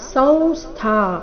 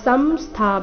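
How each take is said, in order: First: The nasal is pronounced as a nasal v. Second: The nasal is not a nasal v sound. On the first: The speaker calls it right. "ಅನುಸ್ವಾರದ ಉಚ್ಚಾರಣೆ ವ, ನಾಸಿಕ ವ ಬರಬೇಕು" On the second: The speaker calls it wrong. "ಸಂಸ್ಥಾ ಅಥವಾ ಸಂಸ್ಥಾ ಬೇಡ"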